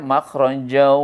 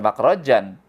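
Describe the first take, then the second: First: The final n merges into a nasal w sound. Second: The word ends with a clear n sound. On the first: The speaker calls it right. "Dibacanya makhrajau" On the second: The speaker calls it wrong. "jangan dibaca makhrajan"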